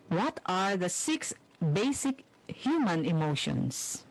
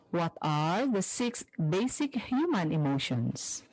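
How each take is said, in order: Both takes have the same delivery.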